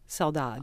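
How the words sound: It is said in a European Portuguese accent. "in Portugal they would say saudade, saudade, because that's their accent"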